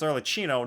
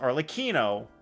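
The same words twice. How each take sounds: First: The cch is said like ch in church. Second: The cch is said like a hard k. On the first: The speaker calls it wrong. "you'd think it's" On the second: The speaker calls it right. "Nope, now it's"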